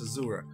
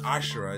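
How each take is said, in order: First: The middle consonant is a 'z' sound. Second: The middle consonant is an 'sh' sound. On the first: The speaker calls it right. "It's Azura" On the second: The speaker calls it wrong. "It's not Ashura"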